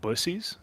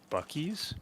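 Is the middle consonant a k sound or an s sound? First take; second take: s sound; k sound. First: The middle consonant is an s sound. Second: The middle consonant is a k sound. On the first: The speaker calls it right. "but Bussies" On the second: The speaker calls it wrong. "is not in fact pronounced Buc-ee's"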